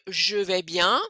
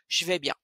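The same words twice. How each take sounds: First: 'Je' is said in full with its vowel. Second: 'Je' is reduced to a 'ch' sound. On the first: The speaker calls it wrong. "au lieu de dire" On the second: The speaker calls it right. "transformer le son je en son che"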